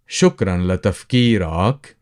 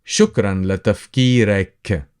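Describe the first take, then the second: First: لتفكيرك ending in a clear open -ak; masculine ending ak. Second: لتفكيرك ending in a fronted -ek; feminine ending ek. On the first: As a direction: say لتفكيرك with the final syllable -ak, as to a man. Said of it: "To a man". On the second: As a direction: say لتفكيرك with the final syllable -ek, as to a woman. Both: Shown as a demonstration.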